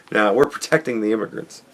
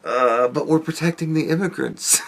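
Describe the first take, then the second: First: Fast giggly throwaway; laughing, rushed. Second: Soft amused delivery, holding back laughter; softly laughing line. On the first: Repeating his baddies joke, quick laughing aside. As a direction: rush it out while laughing. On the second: Retelling his baddies joke, amused and soft. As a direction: say it through a quiet chuckle. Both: Pretend.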